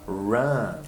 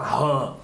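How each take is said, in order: First: It sounds like the English word ran. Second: It sounds like the Portuguese word rã. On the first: The speaker calls it right. "você vai falar run" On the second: The speaker calls it wrong. "você não vai falar rã"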